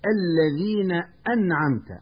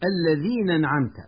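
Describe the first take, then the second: First: The glottal stop is pronounced clearly. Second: The glottal stop is dropped. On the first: The speaker calls it right. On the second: The speaker calls it wrong.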